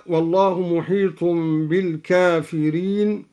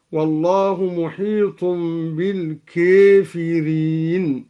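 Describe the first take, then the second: First: Said in the usual way. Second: "بالكافرين" said "bil-kēfirīn", its alif tilted toward "ee"; imala. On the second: Shown as a demonstration. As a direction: bend the long a of "بالكافرين" to a long "ē". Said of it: "بإمالة ألف الكافرين". (إمالة ألف "بالكافرين")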